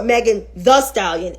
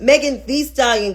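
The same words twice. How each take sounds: First: "Thee" said as THUH, with a schwa; short "thuh". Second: "Thee" said with a long ee. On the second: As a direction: make "Thee" rhyme with "see". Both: Shown as a demonstration. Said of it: "Exactly my whole point".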